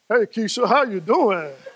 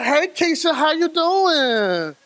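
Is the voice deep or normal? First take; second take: deep; normal. First: It is said in a deep voice. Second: It is said in a normal voice.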